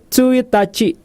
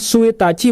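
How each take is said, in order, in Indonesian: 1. Kata ini diawali dengan bunyi ts. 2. Kata ini diawali dengan bunyi s biasa. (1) "tapi Tsuitachi" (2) "Bukan Suitachi"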